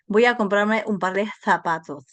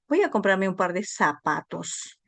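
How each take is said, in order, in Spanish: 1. La z se pronuncia con la lengua entre los dientes. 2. La z se pronuncia como una s normal. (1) "deberíamos decir" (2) "escribimos con Z y pronunciamos con S"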